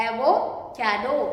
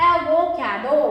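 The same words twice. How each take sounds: First: "एवोकाडो" lower and slow, split एवो, काडो; slow sounding-out. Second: Said in the usual way. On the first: Shown as a demonstration. Teacher repeats for learners, "एवोकाडो" slowly in parts. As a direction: break "एवोकाडो" into two slow halves. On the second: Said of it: "word क्या बना".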